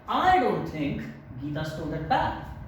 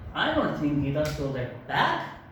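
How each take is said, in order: First: The word I carries the main stress. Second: The word bag carries the main stress. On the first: Others may believe it, but the speaker does not. "we give stress on I" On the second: She stole other things, not the bag. "If you pay stress on bag"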